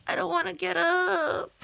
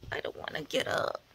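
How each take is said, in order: First: High, louder whiny fake cry; hammed-up crying whine; whiny moan. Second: Whispered morning groan; hushed grumble from bed.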